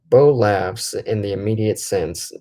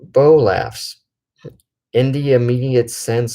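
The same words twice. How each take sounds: First: It runs on quickly with no pause. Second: There is a pause after laughs.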